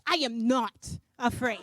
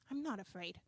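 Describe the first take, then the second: First: It is said defiantly, stressing each word. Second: It is said with more firmness.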